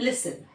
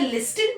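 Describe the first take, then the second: First: The t sound is left out. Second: The t sound is clearly pronounced. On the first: The speaker calls it right. "हम बोलते हैं लिसन" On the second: The speaker calls it wrong. "क्या लिस्टन बोलते हैं हम, नहीं"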